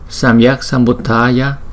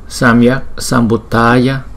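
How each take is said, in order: The two takes are said the same way.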